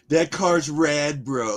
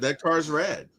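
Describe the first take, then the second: First: It is said with lively enthusiasm. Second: It is said flatly, without enthusiasm.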